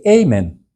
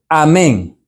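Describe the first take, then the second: First: The stress is on the first syllable. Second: The stress is on the last syllable. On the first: This is how English speakers say it. The speaker calls it wrong. "ellos dicen amen" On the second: This is the original Hebrew pronunciation. The speaker calls it right. "esa palabra debe decirse así en todos los idiomas"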